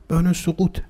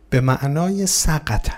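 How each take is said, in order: First: سقوط said soqut with a long u; soqut gloss. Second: سقط said slowly as saqt, short vowels. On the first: Preacher explaining the word to listeners, سقوط said soqut. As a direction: give the gloss سقوط, soqut, at normal pace. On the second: Preacher slowly glossing the word for listeners, سقط said saqt. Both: Shown as a demonstration.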